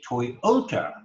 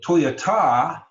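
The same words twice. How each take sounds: First: The stress falls on the middle syllable. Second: The stress falls on a syllable other than the middle. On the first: The speaker calls it right. "we say Toyota. That middle syllable is emphasized" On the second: The speaker calls it wrong. "We don't say"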